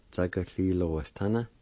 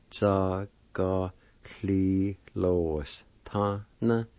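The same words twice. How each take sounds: First: Said in the usual way. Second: Slow, evenly separated syllables. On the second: Shown as a demonstration. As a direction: draw each syllable out for the learner. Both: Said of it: "it's pronounced like this".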